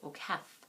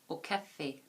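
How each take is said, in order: First: The final vowel is silent. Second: The final vowel is clearly pronounced. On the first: The word has no accent mark on its final letter. "If the accent aigu was not there, we'd say au caf" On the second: The word has an accent mark on its final letter. "because that accent aigu is there, we have to say au café"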